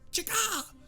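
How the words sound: It is said in a shrill, strained voice.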